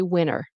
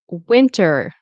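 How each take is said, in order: First: The T sound after the N is dropped. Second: The T sound after the N is pronounced.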